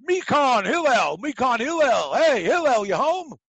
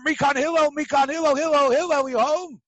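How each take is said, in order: First: Loud, higher calling up to the house; screaming up. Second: Loud, higher repeated yell for Hillel; calling out. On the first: Man calling Hillel out of his house, shouted loud and high. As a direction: yell up at the window for Hillel. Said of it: "he screamed up". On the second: Man calling Hillel out again, shouted loud and high. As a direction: holler up to the house. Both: Retold or imitated.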